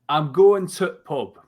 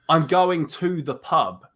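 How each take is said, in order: First: The word 'the' is reduced into 'to'. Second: The word 'the' is said in full. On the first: "They'll say" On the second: "So it won't be like"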